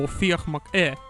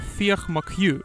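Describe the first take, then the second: First: The surname ends with an Irish 'ee' sound. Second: The surname ends with an English 'Hugh' sound.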